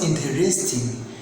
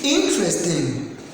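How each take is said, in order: First: The stress is not on the first syllable. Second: The stress is on the first syllable. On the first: The speaker calls it wrong. "Don't pronounce interesting" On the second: The speaker calls it right. "The correct pronunciation is interesting. ... the stress is here on this I"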